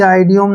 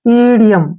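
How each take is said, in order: First: The word begins with an 'eye' vowel sound. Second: The word begins with an 'ee' vowel sound. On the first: The speaker calls it wrong. "इसको कभी भी आइडियोम नहीं पढ़ना है" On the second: The speaker calls it right. "आई का उच्चारण ई के रूप में होगा"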